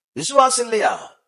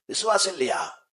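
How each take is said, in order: First: High, raised preaching shout; forceful challenge. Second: Said in the usual way. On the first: Real, not acted. Preacher challenging the congregation about faith, forceful shout. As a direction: cry the question out high to the congregation.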